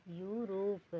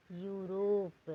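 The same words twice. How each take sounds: First: Said in the usual way. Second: Europe stretched out very slowly, each sound held; slow model word. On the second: Shown as a demonstration. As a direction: say Europe very slowly, spelling it with your voice. (Europe को बहुत धीरे, खींचकर बोलना) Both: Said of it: "जैसे कि".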